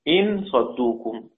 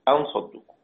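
First: The first word begins with an 'i' vowel. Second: The first word begins with an 'a' vowel. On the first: "بكسر الهمزة إن صدوكم" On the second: "والباقون طبعا أن بالفتح"

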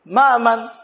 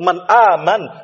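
First: The n is dropped and merged into the vowel. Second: The n is clearly kept before the vowel. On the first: The meaning is lost and misunderstood. The speaker calls it wrong. "enggak akan terpahami juga kalau kita kata ma'aman" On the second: It means who believes. The speaker calls it right. "Maksud itu man aman, siapa yang beriman?"

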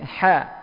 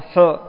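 First: The ha is thin, with an open mouth. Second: The ha is thick, with a heavy rounded sound. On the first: The speaker calls it right. "Tapi ha. Tipis" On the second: The speaker calls it wrong. "bukan hu"

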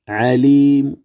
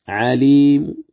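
No difference in how they are said.

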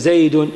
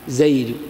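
First: The final vowel is pronounced fully and clearly. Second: The final vowel is only hinted with a faint sound. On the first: The speaker calls it wrong. "ما تقول مثلا هذا زيد وأردت أن تقف زيد ولا زيد" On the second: The speaker calls it right. "إنما زيد بعبارة عن الحركة بصوت إيش؟ خفي"

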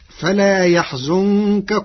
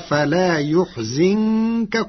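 First: The verb has fatha on ya and damma on za. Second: The verb has damma on ya and kasra on za.

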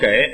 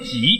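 First: The word is pronounced gěi, with a g sound. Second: The word is pronounced jǐ, with a j sound. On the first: The speaker calls it wrong. "我们都念给" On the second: The speaker calls it right. "这个字正音应该念己"

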